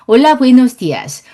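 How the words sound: The pitch stays low and flat throughout. The speaker calls it wrong. "요거 한국어예요"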